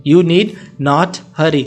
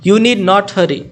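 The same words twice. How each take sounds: First: Slow, careful repeat for learners. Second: Said in the usual way. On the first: Shown as a demonstration. Teacher repeating for learners, slow and clear. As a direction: say it again slowly so students follow. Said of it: "teacher repeats for learners". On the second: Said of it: "teacher gives model sentence".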